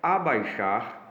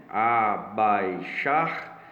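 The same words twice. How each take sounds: First: Slow, split into syllables A-bai-xar. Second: Abaixar drawn out very slowly, stress on the last syllable -XAR; syllables with final stress. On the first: Teacher sounding out Abaixar for the class, slow and syllabic. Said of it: "separação silábica". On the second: Teacher showing pupils the stressed last syllable of Abaixar. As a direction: stretch Abaixar and lean on -xar. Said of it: "tendo a tonicidade da sílaba". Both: Shown as a demonstration.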